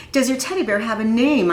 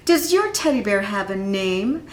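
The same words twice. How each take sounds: First: "Does your teddy bear have a name?" repeated a bit louder and firmer. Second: Said in the usual way. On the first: Acted. Ira repeats his question to Reggie, a little louder. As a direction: repeat the question so he can't ignore it. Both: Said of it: "I said louder".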